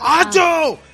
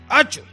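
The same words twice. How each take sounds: First: The word is said very loudly. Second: The word is said at a normal volume. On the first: It signals that someone is right behind. "Si lo dices muy alto" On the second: It is an ordinary way to call someone. "Eso para llamarte de forma normal"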